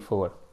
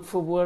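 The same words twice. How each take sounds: First: It sounds dominant and commanding. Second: It sounds submissive and pleading.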